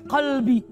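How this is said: The word starts with a q sound. "bukan qalbi"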